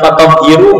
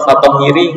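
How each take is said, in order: First: The word ends with an added u vowel. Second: The word ends with an added i vowel. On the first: "bukan fatahhiru enggak" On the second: "atau fatahhiri enggak"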